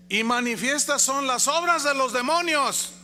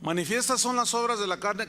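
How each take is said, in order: First: "obras de los demonios" read higher and louder as a joke; mock misreading. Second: "Manifiestas" given a firm stress, read correctly; "las obras de la carne" read out clearly and correctly. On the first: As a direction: stress on "demonios" as a deliberate misreading. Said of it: "¿Así dice su Biblia?". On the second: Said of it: "la palabra clave es manifiestas". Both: Shown as a demonstration.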